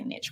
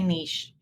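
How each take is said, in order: First: The word is given its plain everyday pronunciation. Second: The word is given its fancy-sounding pronunciation. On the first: The speaker is being ordinary. "If you're not, you say niche" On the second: The speaker is being posh. "If you're fancy, you say niche"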